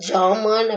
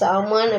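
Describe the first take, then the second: First: The word begins with a j sound. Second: The word begins with an s sound. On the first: "ஜாமான் அப்படின்னு வடமொழி ஆக்கத்துல உச்சரிக்கிறாங்க" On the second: "சாமான் அப்படின்றது"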